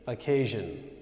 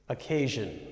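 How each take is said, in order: The two takes are said the same way.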